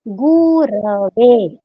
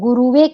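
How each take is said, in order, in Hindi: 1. दूसरे अक्षर में छोटा a स्वर है। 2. दूसरे अक्षर में u स्वर है।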